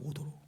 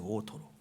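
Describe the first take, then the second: First: The middle consonant is a soft d. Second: The middle consonant is a strong t. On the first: The speaker calls it wrong. "발음이 잘 안 되고 오도로 그러세요. 너무나 촌스러운 발음입니다" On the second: The speaker calls it right. "오토로예요"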